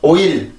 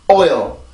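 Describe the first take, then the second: First: It is said in a Korean way. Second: It is said in an English way.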